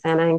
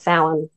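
First: It is said with an anglicized pronunciation. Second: It is said with the Gaelic pronunciation. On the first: "rather than Samhain, because their words are never pronounced how they look" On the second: "The Gaelic way of pronouncing it's more Samhain"

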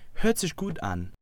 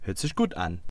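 First: It is said a little faster. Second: It is said very fast.

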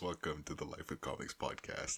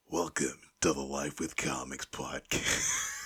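First: It is said in his normal speaking voice. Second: It is said in a dramatic movie-trailer voice.

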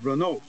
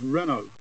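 First: The name is said the American way. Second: The name is said the British way.

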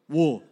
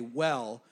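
First: The word has a rounded 'oo' vowel. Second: The word has a plain open 'eh' vowel. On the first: This imitates one man's distinctive way of saying it. "for him, it's full on sheep's wool" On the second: This is how most people say it. "as we would all say"

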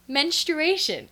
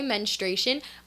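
First: The word is said closely following its spelling. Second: The word is said differently from its spelling. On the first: The speaker calls it wrong. "I was pronouncing it menstruation" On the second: The speaker calls it right. "I'd heard people say menstruation"

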